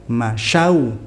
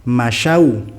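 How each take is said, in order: Both takes have the same delivery.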